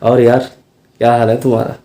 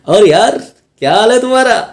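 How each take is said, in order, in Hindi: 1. यह लाइन सामान्य आवाज़ में बोली गई है। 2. यह लाइन ऊँची पिच में बोली गई है। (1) "नॉर्मल जब बोलेंगे तो ऐसे बोलेंगे" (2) "कॉमेडी कैरेक्टर कर रहे हैं तब आप बोल सकते हैं हाई पिच पे"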